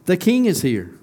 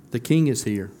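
First: Higher and louder, a joyful cry; excited proclamation. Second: Said in the usual way. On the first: Acted. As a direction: announce the king's arrival with rising joy. Preacher repeats the crowd's cry.

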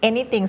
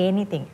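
First: "anything" with a short first vowel. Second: "anything" with the first vowel drawn out; overlong vowel. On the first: Teacher modelling for a student, short vowel in "anything". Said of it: "เสียงสั้นค่ะ". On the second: Teacher showing a student's slip, overlong vowel in "anything". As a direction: stretch the "a" of "anything" too long. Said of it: "อันนี้ยาวไปนิดนึง ไม่ใช่". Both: Shown as a demonstration.

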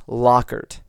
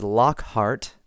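First: Lockhart with silent H, "Lockert"; corrected pronunciation. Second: Lockhart as two full parts, lock-hart; old mispronunciation. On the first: Podcaster giving a listener's correction, Lockhart without the H. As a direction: say Lockhart slowly as LOCK-ert. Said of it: "It's Lockhart". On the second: Podcaster showing his past mistake, Lockhart with sounded H. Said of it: "I have pronounced their surname in the past as". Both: Shown as a demonstration.

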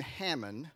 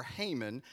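First: Haman said "HAM-un"; short-a pronunciation. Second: Haman said "HAY-mun"; long-a pronunciation. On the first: Preacher offers congregation one option, Haman as "HAM-un". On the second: Preacher offers congregation another option, Haman as "HAY-mun". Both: Shown as a demonstration. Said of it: "however you wanna say it".

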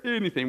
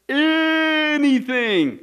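First: Said in the usual way. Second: "anything" held long, high and far louder at its start; stress on anything. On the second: Real, not acted. Preacher flagging the catch in a definition, "anything" heavily stretched. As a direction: stretch out the first vowel of "anything". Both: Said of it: "I stress that word there".

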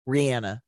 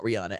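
First: Rihanna said ree-ANN-a; correct pronunciation. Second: Rihanna said ree-AH-na; broad AH in the middle of Rihanna; wrong pronunciation. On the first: Host showing how she announced it, Rihanna as ree-ANN-a. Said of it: "I would always say". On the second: Host rejecting the common version, Rihanna as ree-AH-na. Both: Shown as a demonstration.

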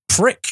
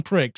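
First: A curt, disdainful jab at the word "Prick."; Glenn Close's scornful "Prick.". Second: Said in the usual way. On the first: Retold or imitated. Nova Prime dismissing the Prime Minister with a scornful "Prick.". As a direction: spit "Prick." out sharp and higher with contempt. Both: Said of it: "She delivers the line".

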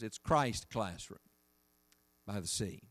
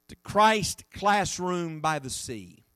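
First: "Christ Classroom by the Sea" dropped to a soft, low hush; hushed repeat. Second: Said in the usual way. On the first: Shown as a demonstration. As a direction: let the title sink in, much softer and lower.

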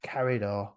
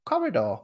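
First: "Corridor" with a flat a, like "carry-door", pitched lower; altered pronunciation. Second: "Corridor" with a rounded o in the first syllable, pitched higher; corrected pronunciation. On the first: Repeats word with changed vowel. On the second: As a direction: say "Corridor" as "corry-door". Corrects the word's vowel. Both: Shown as a demonstration.

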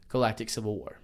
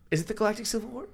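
First: Galactic Civil War said as a falling statement; "Galactic Civil War" ends low and settled. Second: "Galactic" lifted high, with the question rising at the end. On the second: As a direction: ask "Galactic Civil War" with a high, unsure rise. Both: Real, not acted.

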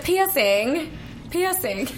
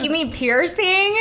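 First: "Piercing" said "PEE-sing" without the R; "Piercing" in an Australian accent, R dropped; Aussie "piercing". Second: Said in the usual way. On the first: Retold or imitated. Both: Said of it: "how does she pronounce piercing?".

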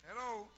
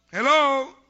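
First: Much softer, almost to himself; a quiet, knowing hello; hushed hello to the congregation. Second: Higher, much louder hello; shouted hello to the congregation. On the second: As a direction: call out hello to wake the room. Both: Acted.

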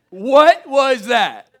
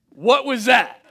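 First: High, loud and drawn-out disbelief; the same question slowed right down in amazement; slow stunned repeat. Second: High, loud, startled with a laugh; shocked kid asking what just happened; stunned question. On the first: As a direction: stretch each word in shock. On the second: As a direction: blurt it out in disbelief. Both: Retold or imitated. Shocked kid questioning his parents.

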